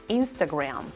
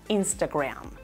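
Both takes have the same delivery.

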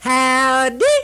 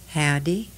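First: The greeting is shouted very loudly. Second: The greeting is said softly and gently. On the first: "Now I scream it out very loud" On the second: "it was a very gentle howdy"

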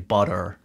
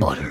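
First: It is said in an American accent. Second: It is said in a British accent. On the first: "they'd just use an American accent" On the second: "Whereas I'm there going"

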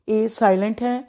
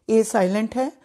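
No difference in how they are said.

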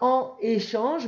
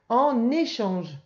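First: The two words are said separately, with no linking n. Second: The two words are joined by a linking n sound. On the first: The speaker calls it wrong. "On ne dit pas en échange" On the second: The speaker calls it right. "mais en échange"

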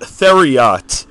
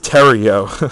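First: The name is said as Theriot. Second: The name is said as Terrio. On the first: The speaker calls it wrong. "I watch so many videos where they pronounce it Theriot" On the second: The speaker calls it right. "It's pronounced Terrio"

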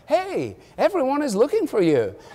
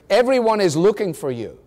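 First: It sounds friendly and cheerful. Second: It sounds impatient and disrespectful.

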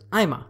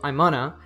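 First: The phrase is reduced to 'I'ma'. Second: The phrase is reduced to 'I'mana'. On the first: "the third level connected speech reduction here is I'ma" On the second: "On the first level, it reduces to I'mana"

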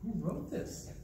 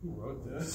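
First: The voice sounds impressed and admiring. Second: The voice sounds embarrassed and dismayed. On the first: The speaker thinks the old writing is very good. "I thought it was really good" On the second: The speaker thinks the old writing is bad. "Same words, different intonation"

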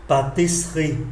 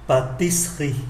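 First: The word is said with three syllables. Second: The same.

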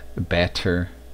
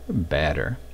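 First: The middle consonant is a clear T sound. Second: The middle consonant is a quick D-like flap. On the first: "Instead of batter" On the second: "the double T pronounced as a flap"

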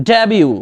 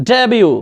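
Both takes have the same delivery.

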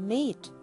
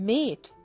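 The two takes are said the same way.

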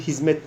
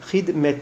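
First: The middle consonant is pronounced as z. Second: The middle consonant is pronounced as d. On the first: This is how the word is normally pronounced. "ama biz telaffuzu hizmet diye zikrediyoruz" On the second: This reading follows the written letters. "Hidmet şeklinde"

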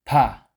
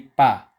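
First: The p is aspirated, with a puff of air. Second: The p is plain, without a puff of air. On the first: The speaker calls it right. "Next is pa" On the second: The speaker calls it wrong. "Hindi pa"

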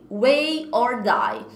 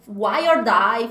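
First: The first word sounds like 'way'. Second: The first word sounds like 'why'. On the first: The speaker calls it right. "É Way" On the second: The speaker calls it wrong. "Eu achava que você pronunciaria Why"

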